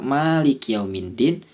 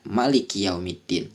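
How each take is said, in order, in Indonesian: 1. Vokal setelah m dibaca panjang. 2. Vokal setelah m dibaca pendek.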